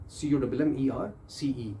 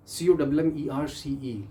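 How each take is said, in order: Both takes have the same delivery.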